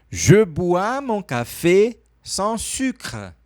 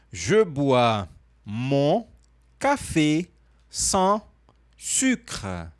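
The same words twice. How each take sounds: First: French model phrase joined up, still measured; a bit faster. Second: Very slow, word by word with pauses; slow model phrase. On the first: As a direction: link the words into one careful sentence. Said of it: "falar um pouco mais rápido". (um pouco mais rápido, frase emendada) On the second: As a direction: spell out the French sentence in separate, drawn-out chunks. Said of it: "Repete pra mim devagar". (bem devagar, palavra por palavra) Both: Shown as a demonstration.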